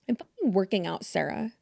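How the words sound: It is read in a mocking put-on voice.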